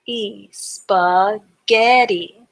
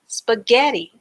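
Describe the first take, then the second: First: "spaghetti" drawn out very slowly; slow blended word. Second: Said in the usual way. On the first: Shown as a demonstration. Teacher slowly blending the syllables into spaghetti. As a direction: stretch "spaghetti" as you blend it. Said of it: "break the word up into syllables". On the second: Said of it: "pronounce the word all together".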